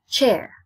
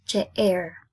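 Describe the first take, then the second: First: CHAIR in one unbroken, louder beat; one syllable only. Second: CHAIR broken in two as che-air; wrongly split word. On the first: Teacher correcting the wrong split, one syllable only. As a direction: say "chair" firmly as a single syllable. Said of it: "So it's chair". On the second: Teacher showing what not to say, word wrongly split. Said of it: "You don't say it as". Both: Shown as a demonstration.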